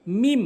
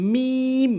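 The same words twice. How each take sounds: First: "মিম" with a short i; wrong pronunciation. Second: "মিম" long and level, higher pitched; correct pronunciation. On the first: Teacher shows learners the mistake, short "মিম". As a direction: say "মিম" quickly. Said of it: "ভুল উচ্চারণ". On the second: Teacher models the Arabic letter, sustained "মিম". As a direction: hold the ee of "মিম". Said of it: "সঠিক উচ্চারণ হচ্ছে". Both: Shown as a demonstration.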